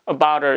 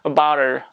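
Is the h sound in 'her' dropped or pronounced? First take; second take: dropped; pronounced. First: The h sound in her is dropped. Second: The h sound in her is clearly pronounced. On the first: The speaker calls it right. "about her 이렇게 발음한다" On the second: The speaker calls it wrong. "이렇게 발음 안 하고"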